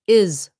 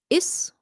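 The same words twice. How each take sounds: First: The word ends with a buzzing Z sound. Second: The word ends with a hissing S sound. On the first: The speaker calls it right. "It should be is" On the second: The speaker calls it wrong. "So you don't say is"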